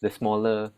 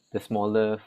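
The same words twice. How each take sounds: The two takes are said the same way.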